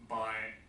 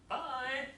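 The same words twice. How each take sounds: First: The pitch stays low and flat. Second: The pitch rises higher on the word. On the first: It sounds impolite. The speaker calls it wrong. "if you use low intonation" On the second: It sounds polite. The speaker calls it right. "rise my intonation"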